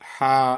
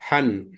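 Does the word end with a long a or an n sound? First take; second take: long a; n sound. First: The word ends with a long a vowel. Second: The word ends with an n sound. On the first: The speaker calls it right. "ఒక ఫథా తీసేయండి. హా ఫథాలిఫ్" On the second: The speaker calls it wrong. "హా ఫతతేన్"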